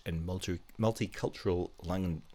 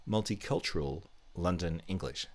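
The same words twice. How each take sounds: First: "multicultural London" stumbled over, the end of London lost; stumbled words. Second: "multicultural London English" said carefully and in full; careful retry. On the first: Quiz host fumbling the name of an accent, stumbling. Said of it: "I can't even say it". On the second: Quiz host correcting a tongue-tripped term, careful. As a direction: get every word of "multicultural London English" out cleanly. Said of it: "I'm gonna say it again". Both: Real, not acted.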